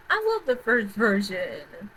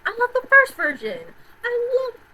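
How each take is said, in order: First: Said in the usual way. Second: High, loud burst of love; gushing. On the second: Real, not acted. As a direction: gush about the original, louder and higher. Gushing over the first film.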